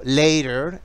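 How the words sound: It is said in an American accent.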